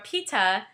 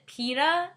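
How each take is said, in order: First: The name is said like British 'Peter'. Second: The name is said like the word pita. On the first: "like how British people say Peter" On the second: "like pita bread"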